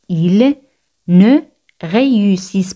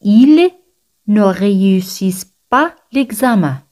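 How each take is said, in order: First: "Ils ... ne ... réussissent pas l'examen", first words separated; word-by-word demonstration. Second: Said in the usual way. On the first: Shown as a demonstration. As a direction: pause after "Ils" and after "ne". Repeat broken up at the start.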